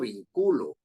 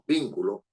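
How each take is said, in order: First: The stress is on the middle syllable. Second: The stress is on the first syllable. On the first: The speaker calls it wrong. "No estoy diciendo vinculo" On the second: The speaker calls it right. "Sino es bin, anterior a la penúltima"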